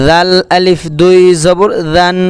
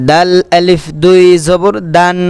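The two takes are said the same way.

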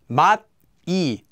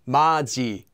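First: The consonant before the vowel is a plain t. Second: The consonant before the vowel is a ch.

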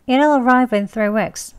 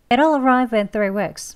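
No difference in how they are said.

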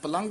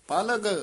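First: A nasal sound comes before the final consonant. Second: No nasal sound comes before the final consonant. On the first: The speaker calls it wrong. "ਪਲੰਗ ਵੀ ਨਹੀਂ ਕਹਿਣਾ ਹੈ" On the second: The speaker calls it right. "ਪਲਗ ਇਸ ਤਰ੍ਹਾਂ ਘੱਗਾ ਬੋਲਣਾ ਹੈ"

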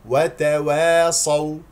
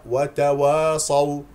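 First: The opening syllables sound light and thin. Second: The opening syllables sound heavy and dark. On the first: The speaker calls it right. "اسمعني جيدا... إذن وتوا مستفلة" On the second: The speaker calls it wrong. "هنالك من يخطئ للأسف في هذه الكلمة ويقول... وهذا خطأ"

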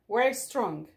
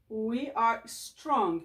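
First: 'We are' is shortened into one syllable. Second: 'We are' is said as two full words. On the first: "Change the sound, ok? O som aqui nesta palavra muda"

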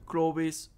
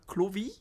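First: The final S sound is pronounced. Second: The final S sound is silent.

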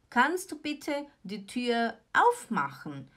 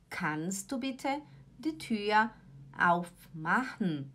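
First: The sentence is spoken at a normal pace. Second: The sentence is spoken slowly and deliberately.

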